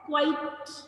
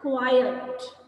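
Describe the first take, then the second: First: The word is said like quite. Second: The word is said like quiet. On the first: The speaker calls it wrong. "बहुत सारे बच्चे mispronounce करते हैं, गलत बोलते हैं। ... So quite is not the right way to pronounce it" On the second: The speaker calls it right. "It is called quiet"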